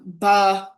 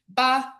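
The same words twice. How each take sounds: First: The syllable is said on a low pitch. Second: The syllable is said on a high pitch. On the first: To count. "low tone" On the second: To be sour. "high tone"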